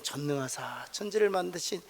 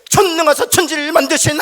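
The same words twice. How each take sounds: First: It is recited softly and smoothly. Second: It is recited in crisp, clipped, military beats. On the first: Believers recite the creed gently from the heart. "부드럽게 외우잖아요" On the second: Believers recite the creed in unison like soldiers. "또박또박 군인들이 하듯이"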